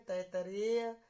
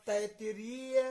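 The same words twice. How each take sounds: First: "तैतरेय" ending in ray-ya; variant "रेय" ending. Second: "तैतरीय" drawn out, ending ree-ya; long "रीय" ending. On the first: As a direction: say "तैतरेय" with ay in place of ee. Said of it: "ऐसे बोलते हैं". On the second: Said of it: "यहाँ रीय कर लो". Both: Shown as a demonstration.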